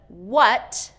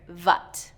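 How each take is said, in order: First: It begins with a rounded-lip w sound. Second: It begins with a v sound against the teeth. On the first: The speaker calls it right. "with the rounded" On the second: The speaker calls it wrong. "I'm hearing vat"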